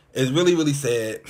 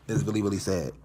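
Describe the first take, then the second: First: Louder, pressing on really; emphatic lament. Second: Said in the usual way. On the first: Real, not acted. A mime insisting to viewers how sad it is, louder. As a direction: lean hard into the repeated really.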